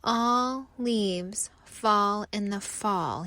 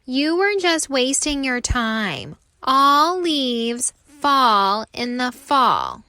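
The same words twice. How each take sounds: First: Sad inner thought. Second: Louder, slow gloating chant; taunting. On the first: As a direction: think it to himself, giving up. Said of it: "he thinks". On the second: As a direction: gloat over his failure. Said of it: "taunt the other leaves". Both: Acted.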